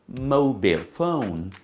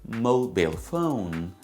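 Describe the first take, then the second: No difference in how they are said.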